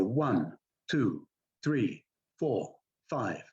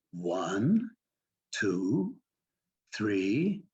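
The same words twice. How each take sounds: First: Each number from "One" to "five" dropping at the end; separate, finished falling tones on "One" to "five"; falling count. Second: "One", "two", "three" each sliding up at the end; teacherly rising tone on "One", "two", "three"; upward inflection. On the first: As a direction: count off flatly, closing each number downward. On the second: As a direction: count slowly as if teaching a small child, lifting each number. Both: Retold or imitated. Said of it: "why are you going up on those sounds".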